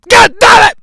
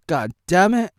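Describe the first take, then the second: First: God damn it yelled higher and louder; mock angry outburst; shouted curse. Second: Said in the usual way. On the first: Shown as a demonstration. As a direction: bark it out in frustration.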